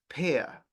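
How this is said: The final R sound is dropped and silent. "en el inglés británico es pear"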